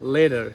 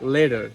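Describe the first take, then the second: The two takes are said the same way.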